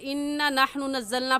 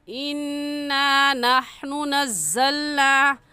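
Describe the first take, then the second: First: The vowel after the doubled n is short. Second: The vowel after the doubled n is lengthened. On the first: The speaker calls it wrong. "पढ़ना गलत है" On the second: The speaker calls it right. "अलिफ मद्दा को एक अलिफ के बराबर खींचते हैं"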